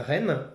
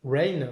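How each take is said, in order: First: Rain said the French way, rolled French r, short "ren"; French-style Rain. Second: Rain corrected to English, gliding "rein" vowel; quick self-correction to an English-sounding Rain. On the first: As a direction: Rain pronounced like a French word, "rèn". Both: Real, not acted. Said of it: "avec mon accent vraiment pourri".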